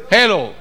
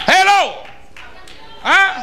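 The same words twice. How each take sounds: First: Said in the usual way. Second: Hello as a sharp, sarcastic jab; preacher needling the gossip listeners, sarcastic. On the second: Acted. Preacher mocks gossip lovers.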